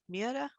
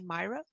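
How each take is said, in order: First: The name is said the Norwegian way. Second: The name is said the British way. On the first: "the Norwegians pronounce this" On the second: "in the U K, I understand people say"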